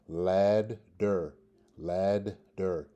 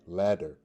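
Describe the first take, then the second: First: Ladder split as "lad... der", a D in each half; syllable-by-syllable demo. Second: Said in the usual way. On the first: Shown as a demonstration. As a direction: break "ladder" in two, sounding both d's. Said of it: "a D sound in the first syllable". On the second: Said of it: "D sound in the second syllable".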